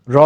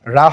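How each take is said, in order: First: "র" with a rounded aw sound; rounded o vowel. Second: "রা" with an open aa vowel; wrong vowel. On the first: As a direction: say "র" as raw, not raa. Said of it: "র জবর হবে র". (অ ধ্বনি দিয়ে ভারী "র") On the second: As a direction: say a plain, open "রা". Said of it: "রা হবে না". (খোলা আ-ধ্বনি দিয়ে "রা") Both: Shown as a demonstration.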